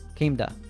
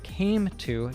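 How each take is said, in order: First: The 'to' has a soft t and schwa. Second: The word 'to' is said fully and clearly. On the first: "she says came to" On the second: "instead of came to"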